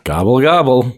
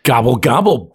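First: It is said in a friendly, mild tone. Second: It is said in a nasty, aggressive tone. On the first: The speaker calls it wrong. "That sounded so friendly" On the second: The speaker calls it right. "put a little more stank on that there"

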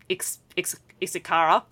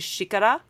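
First: The x at the start does not sound like sh. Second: The x at the start sounds like sh. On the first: The speaker calls it wrong. "if I was pronouncing it with my really broken Australian Queensland accent" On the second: The speaker calls it right. "is pronounced like a sh"

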